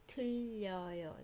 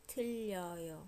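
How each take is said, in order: First: The vowels merge, giving two syllables. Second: The vowels merge, giving two syllables.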